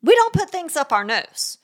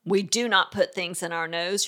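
First: Higher-pitched, brisk firm rule; firm parent closing the discussion. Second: Firm but not yelling. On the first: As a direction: cut off debate with one firm line. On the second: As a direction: state the rule and leave no opening. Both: Shown as a demonstration. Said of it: "is firm".

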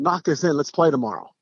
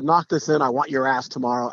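First: Easy, friendly encouragement; casual friendly challenge between rivals; friendly invite. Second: A touch of trash-talk menace; hint of a cocky taunt; mock taunt. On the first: Retold or imitated. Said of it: "Just like that". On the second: Shown as a demonstration. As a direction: sneer it lightly as a threat. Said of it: "Not a".

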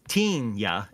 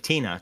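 First: 'Tina' with a Y sound slipped in before the A; 'Tina' ending in a gliding -nya; alien-style name. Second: Said in the usual way. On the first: Shown as a demonstration. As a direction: say 'Tina' as TEEN-ya.

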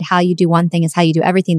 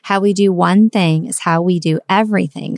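First: Rattled off fast in passing; fast offhand quote; quick quote. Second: Each phrase set down evenly; deliberate restatement. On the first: Retold or imitated. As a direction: toss the line off quickly. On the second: Shown as a demonstration. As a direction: say it again so it lands. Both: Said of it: "I wanna say it again".

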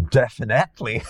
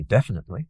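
First: "definitely" with an extra syllable, Glaswegian style; "definitely" stretched with added syllables; old Glaswegian pronunciation. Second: "definitely" said cleanly in four syllables; "definitely" as standard English says it; proper pronunciation. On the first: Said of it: "I would pronounce that". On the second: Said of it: "I'm gonna say it properly". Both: Shown as a demonstration.

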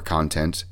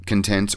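First: "Content" said as CON-tent, stress on the first syllable; second pronunciation. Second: "Content" said as con-TENT, stress on the second syllable; first pronunciation. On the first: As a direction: hit the start of "Content". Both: Shown as a demonstration. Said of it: "I don't know if it's Content or Content".

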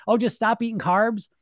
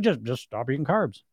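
First: High-pitched sarcastic echo of advice; mocking, raised-pitch know-it-all; mock breezy advice. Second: Emotionless professor, lower in pitch; low-key, detached lecturing voice; Doctor Spock. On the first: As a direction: toss it off as if it were easy. Mocking the simplistic diet advice. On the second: Acted. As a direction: state it with no sense of emotion. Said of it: "with no sense of emotion, like Doctor Spock".

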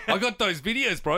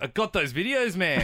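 First: Mock taunt, laughing. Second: Laughing taunt. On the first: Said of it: "I'm like". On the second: Retold or imitated. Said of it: "And he was like".

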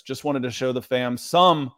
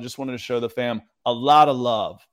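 First: Some leaned on at the end; stress on some. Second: "lot" punched with a fall; stress on a lot. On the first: Retold or imitated. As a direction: hit the word "some" with a falling tone. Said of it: "I emphasize the word some". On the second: Shown as a demonstration. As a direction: lean on "a lot of love". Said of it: "I'm gonna change that up".

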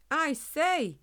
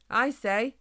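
First: High, raised-voice call for attention; a little louder. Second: A touch nervous, raised voice; slightly shaking voice. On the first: Hedgehog tries to get the humans' notice, louder. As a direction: speak up to be noticed. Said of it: "only this time a little louder". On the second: Small hedgehog addresses giant humans, slightly shaking. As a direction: try to get attention, a little unsure. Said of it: "his voice shaking slightly". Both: A narrator's reading.

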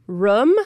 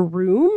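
First: "room" with the short vowel of foot. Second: Said in the usual way. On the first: Retold or imitated. Host quoting a friend, "room" with short vowel. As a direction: say "room" short, close to "rum". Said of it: "closest friends would always say". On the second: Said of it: "and room for room".

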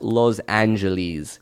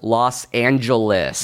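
First: "Los Angeles" as lohz AN-juh-leez; mock foreign pronunciation. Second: "Los Angeles" slow, as lawss AN-juh-liss; corrective American pronunciation. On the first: Host quoting visiting Australians, "Los Angeles" as lohz AN-juh-leez. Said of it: "it's not pronounced Los Angeles". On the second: Acted. Host playing a pedantic tweeter, "Los Angeles" slowly as lawss AN-juh-liss. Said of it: "It's pronounced Los Angeles".

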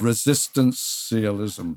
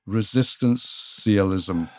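First: Resistance-ialism once more, measured and falling; third slow repetition. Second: Resistance-ialism again, drawn out and falling; slow repeated pronouncement. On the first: Asked a third time, guest repeats the word slowly. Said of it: "Let's have it a third time". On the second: Asked to say it again, guest repeats slowly. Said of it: "Say it again". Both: Shown as a demonstration.

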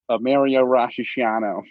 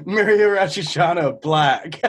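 First: "a Mario Rashiano" said slowly as a fake drink name; slowly mangle "Mario Rashiano"; mispronounced order. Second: "Mario Rashiano Black" drawn out very slowly; repeating the mangled name. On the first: Shown as a demonstration. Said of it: "what did you call it?". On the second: Retold or imitated. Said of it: "I was geeking at that".

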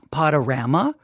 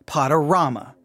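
First: "Potorama" with flat a, "Pod-uh-RAM-uh", rising; first option. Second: "Potorama" with broad ah, "Pod-uh-RAH-muh", falling; second option. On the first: Host polls listeners on the word, rising. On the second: Host polls listeners on the word, falling. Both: Shown as a demonstration. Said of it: "How do you say this".

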